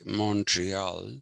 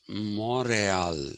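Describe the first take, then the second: First: It is said with an American English pronunciation. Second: It is said with a French pronunciation. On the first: This is how Americans say it. "the Americans say Montreal" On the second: This is the original local pronunciation. "actually the French pronunciation of that was Montreal"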